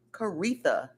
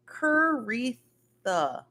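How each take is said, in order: First: Said in the usual way. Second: Caritha drawn out very slowly, syllable by syllable; careful pronunciation. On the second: Shown as a demonstration. Reading a viewer's name from her phonetics, slow and careful. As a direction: sound out Caritha slowly, each syllable clear. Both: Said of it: "putting the phonetics on how to say your name".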